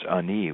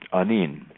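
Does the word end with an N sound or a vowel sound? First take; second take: vowel sound; N sound. First: The word ends with a vowel sound. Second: The word ends with an n sound. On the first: "in some dialects it's Ani without the N on the end" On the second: "Anin is the is the greeting"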